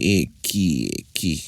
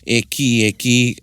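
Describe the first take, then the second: First: It sounds challenging, like who do you think you are. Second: It sounds surprised, like oh is that right.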